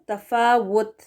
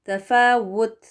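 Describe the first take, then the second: No difference in how they are said.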